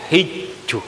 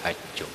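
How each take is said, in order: First: The first vowel is a close 'i' sound. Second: The first vowel is an open 'a' sound. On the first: "Boleh baris ke bawah hijju" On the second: "Nang baris ke atas"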